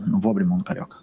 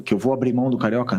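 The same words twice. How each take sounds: First: Rapid, matter-of-fact "não vou abrir mão do Carioca"; dismissive denial. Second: Quick self-posed question on "abrir mão do Carioca"; rhetorical question. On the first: Coach answering his own question about the Carioca, quick denial. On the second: Coach posing the press's doubt to himself, rhetorical question. Asks himself, then answers. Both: Real, not acted.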